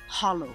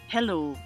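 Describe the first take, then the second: First: It is said with a Gaelic pronunciation. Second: It is said with an ordinary English pronunciation. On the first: The speaker calls it right. "learn to say hello proper" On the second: The speaker calls it wrong. "Instead of saying hello"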